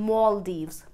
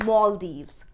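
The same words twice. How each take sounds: No difference in how they are said.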